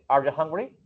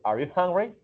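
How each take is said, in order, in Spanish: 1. Las palabras se unen rápido y reducidas. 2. Cada palabra se dice completa y por separado. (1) "Pero ellos dicen" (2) "Uno dice"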